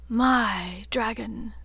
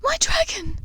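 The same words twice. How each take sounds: First: Slow, deliberate, drawn out; a lightly voiced dark lord savouring possession; slow menacing claim; cold claim. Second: Breathy broken whisper, high and pleading; a mother's grief breaking through; whispered tearful cry. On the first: Voldemort claiming Draco, cold. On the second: Acted. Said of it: "Narcissa's tear-filled voice broke".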